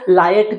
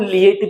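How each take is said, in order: First: It starts with 'lie', said as two syllables. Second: It starts with 'lee', followed by 'ay'. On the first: "इसको लायट भी पढ़ते हैं" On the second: "इसको लिएट भी पढ़ते हैं"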